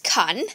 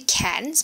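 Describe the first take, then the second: First: The word ends without any S sound. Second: The word ends with an audible S sound. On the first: The speaker calls it right. "the S is silent" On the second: The speaker calls it wrong. "I've heard people say cans"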